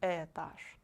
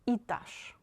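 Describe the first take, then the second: First: The first vowel sounds like eh. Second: The first vowel sounds like ee. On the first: The speaker calls it wrong. "not этаж" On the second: The speaker calls it right. "if this letter is not stressed, again you read it like I"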